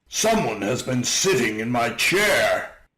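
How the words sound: It is said in a great big voice.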